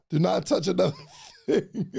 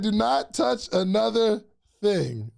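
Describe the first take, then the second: First: Laughing as he says it; a real laugh breaking the line. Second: Slow, every word set apart; mock warning, one word at a time; a hint of a stern slow warning; slow stern quote. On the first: Real, not acted. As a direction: laugh through the warning to yourself. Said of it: "Yeah, he said". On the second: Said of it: "he said".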